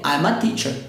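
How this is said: The words are linked in one block.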